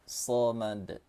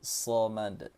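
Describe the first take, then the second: Both takes have the same delivery.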